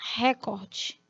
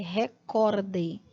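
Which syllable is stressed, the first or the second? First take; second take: first; second. First: The stress is on the first syllable. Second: The stress is on the second syllable. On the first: The speaker calls it wrong. "a maioria dos brasileiros fala assim" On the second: The speaker calls it right. "A pronúncia na língua portuguesa é recorde. Recorde como verbo no imperativo recordar"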